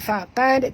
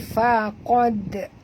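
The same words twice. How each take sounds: First: The q sound is light and thin. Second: The q sound is heavy and thick. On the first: The speaker calls it wrong. "bukan faqad" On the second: The speaker calls it right. "Huruf qaf tebal"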